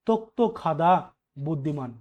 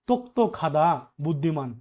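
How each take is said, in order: No difference in how they are said.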